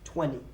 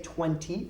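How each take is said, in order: First: The T after the N is dropped. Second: The T after the N is clearly pronounced. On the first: "I don't pronounce the T. I just pronounce it with like an N" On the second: "I don't say twenty"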